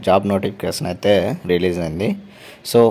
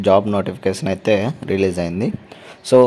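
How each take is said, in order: Both takes have the same delivery.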